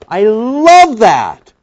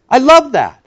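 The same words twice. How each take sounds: First: Very slow, drawn-out, higher; savoured. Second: Said in the usual way. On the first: Real, not acted. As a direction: linger on every word as if tasting it.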